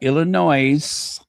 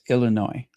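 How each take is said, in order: First: The final S is pronounced. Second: The final S is silent. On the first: The speaker calls it wrong. "not Illinois" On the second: The speaker calls it right. "the S is silent. It's Illinois"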